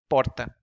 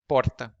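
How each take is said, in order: First: The r is a single quick tongue flap. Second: The r is a single quick tongue flap.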